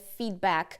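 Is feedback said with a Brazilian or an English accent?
English. Said the English way, with no added vowels. "se em inglês é feedback"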